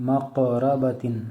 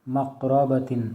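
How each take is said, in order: Both takes have the same delivery.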